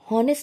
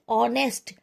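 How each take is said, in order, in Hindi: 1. यह शब्द h की आवाज़ से शुरू होता है। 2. यह शब्द सीधे स्वर की आवाज़ से शुरू होता है। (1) "हॉनेस्ट नहीं बोला जाए" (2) "ओ वाला प्रोनाउंसिएशन, वॉवल वाला प्रोनाउंसिएशन"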